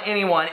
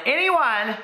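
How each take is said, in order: First: Said in the usual way. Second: ANYONE pitched much higher; emphatic repeat. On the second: Real, not acted. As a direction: hit "anyone" high, as if underlining it. Repeats word for comic emphasis.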